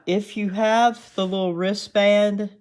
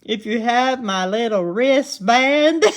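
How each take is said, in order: First: Real Southern twang slipping out, higher and louder; strong Southern accent. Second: Hammed-up Southern accent, high and loud; exaggerated Southern accent. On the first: Real, not acted. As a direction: let your natural Southern accent come through. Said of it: "I heard my Southern accent strong there". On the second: Shown as a demonstration. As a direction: play up your Southern twang for laughs. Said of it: "my Southern accent strong there".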